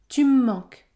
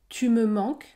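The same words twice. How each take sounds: First: Spoken quickly with the e dropped, one long m. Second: Spoken slowly with the e in me pronounced. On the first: "Si je parle rapidement, la lettre E disparaît... un M plus long" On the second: "Si je parle lentement"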